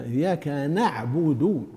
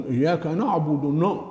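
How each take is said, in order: First: "إياك نعبد" slowly with thin "na'budu"; light nun. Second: "إياك نعبد نا" with dark "no'budu", then "no"; heavy nun. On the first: Teacher modelling the fix, thinned nun. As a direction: keep a front a in "نعبد". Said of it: "ترقيقها". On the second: Teacher imitating the error, heavy nun. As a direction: back the vowel after n in "نعبد". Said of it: "يضخم النون". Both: Shown as a demonstration.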